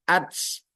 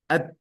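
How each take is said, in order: First: The final t is released with a hissing s sound. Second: The final t is released with only a puff of air. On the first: The speaker calls it wrong. "Bukan ats" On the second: The speaker calls it right. "Yang betul adalah at"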